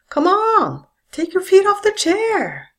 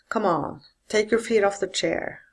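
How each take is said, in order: First: The voice falls from a high pitch. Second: The voice falls from a low pitch.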